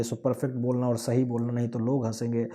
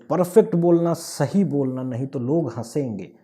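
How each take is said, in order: First: Said in the usual way. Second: ताकीद करते हुए, पहले ज़ोर से; बच्चे को डाँटते माँ-बाप की हल्की नकल; mock parental warning. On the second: (माँ-बाप की चेतावनी की नकल, ज़ोरदार शुरुआत)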